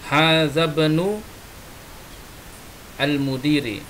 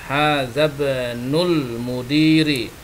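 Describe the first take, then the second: First: The words are said separately, without linking. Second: The words are linked together into one flow.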